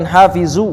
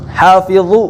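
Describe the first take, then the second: First: The middle consonant is a plain z sound. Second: The middle consonant is an emphatic dha sound. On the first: The speaker calls it wrong. "bukan hafizu" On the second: The speaker calls it right. "Dha yang di ujung lidah"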